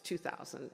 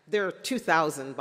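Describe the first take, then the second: First: "two thousand" echoed softer, letting it sink in; quieter repeat. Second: "two thousand" said much louder, punched; stress on two thousand. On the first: Speaker repeating the count softly for effect, quiet. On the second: Speaker to graduates stressing the count, loud on "two thousand". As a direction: hit "two thousand" hard to shock. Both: Real, not acted.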